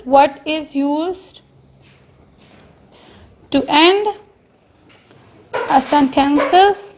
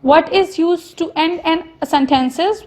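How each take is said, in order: First: Very slow, each word spaced out; slow dictation. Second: Said in the usual way. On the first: Shown as a demonstration. Teacher dictating the question slowly to students. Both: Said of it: "write question number nine".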